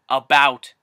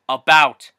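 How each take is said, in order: No difference in how they are said.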